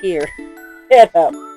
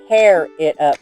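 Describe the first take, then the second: First: Tear rhymes with ear, as in crying. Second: Tear rhymes with air, as in ripping. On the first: Cry it up. The speaker calls it wrong. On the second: Rip it open. The speaker calls it right.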